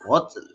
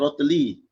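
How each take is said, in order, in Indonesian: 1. Kata ini berakhir dengan bunyi l. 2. Kata ini berakhir dengan vokal setelah l. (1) "tapi dia mati kan. Jadi rotl" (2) "Asalnya rotli"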